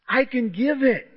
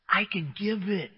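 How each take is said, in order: First: I can give it higher and stronger, landing on it; emphatic repeat. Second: I can give it said softly, quietly; softly as Jesus. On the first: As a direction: declare it with conviction. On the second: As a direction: offer it gently, almost under the breath. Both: Acted. Jesus's answer, voiced by preacher.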